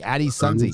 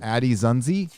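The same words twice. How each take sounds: First: "Sunzi" said with a hissing s at the start. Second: "Zunzi" said with a buzzing z at the start. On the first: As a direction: correct it to "Addie Sunzi" with an s. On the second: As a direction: say "Addie Zunzi" with a z sound. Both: Shown as a demonstration.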